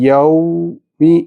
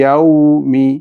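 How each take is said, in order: First: There is a stop between the two syllables. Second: The two syllables run together without a stop. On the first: The speaker calls it wrong. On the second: The speaker calls it right.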